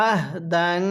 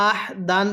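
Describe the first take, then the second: First: আহ দান with a light voiced sound in the throat; correct throat h. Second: আহ দান with air pushed out of the throat; আহ দান said with a breathy h, the wrong way; আহ দান, airy h from the throat. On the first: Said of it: "তাহলে কিভাবে পড়তে হবে?". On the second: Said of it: "গলার মধ্যে বাতাস বের করি". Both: Shown as a demonstration.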